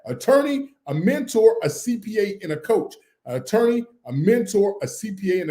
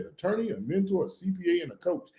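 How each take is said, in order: First: Loud list. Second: Quiet recap. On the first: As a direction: ring out the four names for the chat. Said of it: "Somebody write in the chat". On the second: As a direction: murmur the four names back as a quote. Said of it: "He said". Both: Shown as a demonstration.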